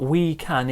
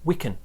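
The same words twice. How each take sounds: First: The word 'can' is said with a full vowel. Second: The word 'can' is said with a weak vowel. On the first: The speaker calls it wrong. "It's not we can" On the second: The speaker calls it right. "it's we can. More like this sound"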